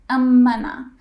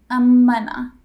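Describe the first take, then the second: Both takes have the same delivery.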